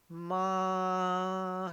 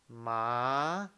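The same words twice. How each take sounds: First: The pitch stays high and level throughout. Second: The pitch rises from middle to high. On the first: "it's the first tone, you will say ma" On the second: "if you want to pronounce the second tone ... It's what ... So you say ma"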